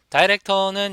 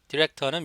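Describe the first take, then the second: First: The first syllable sounds like 'die'. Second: The first syllable sounds like 'dih'. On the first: "다이렉터는 영국식, 호주식 발음이고요" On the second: "디렉터는 미국식 발음입니다"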